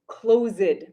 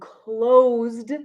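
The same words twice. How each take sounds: First: The word is said with an extra syllable. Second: The word is said as one syllable. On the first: The speaker calls it wrong. "not closed" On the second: The speaker calls it right. "no extra syllable"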